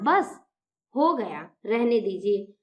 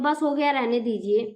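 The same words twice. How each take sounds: First: There is a short pause after बस. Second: There is no pause after बस.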